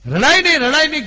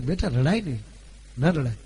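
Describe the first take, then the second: First: High, loud pleading રડાય નહીં with stress on રડાય; a mother loudly begs her daughter to stop crying, high and urgent; mother's urgent hush. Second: Mother soothing. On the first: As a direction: insistently hush the crying girl. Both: Retold or imitated. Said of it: "કીધું બે વાર".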